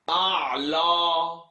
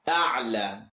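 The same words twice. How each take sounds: First: The ayn and lam sound heavy and deep. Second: The ayn and lam sound light and relaxed. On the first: The speaker calls it wrong. "Please don't say أعلى. The ayn is not heavy, nor is the lam" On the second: The speaker calls it right. "Relax the mouth"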